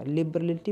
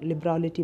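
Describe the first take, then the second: First: लिबरलिटी with a short, weak middle vowel; wrong pronunciation. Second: लिबरलिटी with an open, long "raa"; correct pronunciation. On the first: Teacher offering students the first option for लिबरलिटी, mispronunciation. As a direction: say लिबरलिटी as "lib-ruh-li-tee". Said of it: "अब इसे सही से प्रोनाउंसिएट करिएगा". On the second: Teacher offering students the second option for लिबरलिटी, correct pronunciation. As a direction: say लिबरलिटी as "lib-raa-li-tee". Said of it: "इसे लिबरलिटी बोलेंगे". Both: Shown as a demonstration.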